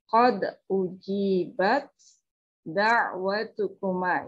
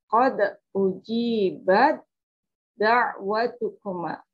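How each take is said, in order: First: The t is pronounced separately with breathy release. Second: The t merges into a doubled d sound. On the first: The speaker calls it wrong. "Tidak dibaca" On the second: The speaker calls it right. "saya berikan contoh pengucapannya"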